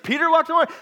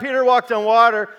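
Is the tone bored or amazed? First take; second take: amazed; bored. First: It is said in an amazed, emphatic tone. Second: It is said in a bored, yawning tone.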